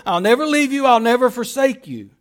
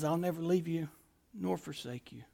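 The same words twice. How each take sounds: First: God's promise declared with force; louder promise. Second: Softer, near-hushed voice of God; hushed promise. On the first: Preacher booming God's promise to a congregation that lost everything. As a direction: proclaim it boldly over their losses. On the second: Preacher softly voicing God's comfort to the fearful congregation. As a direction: lower it to a tender hush. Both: Acted.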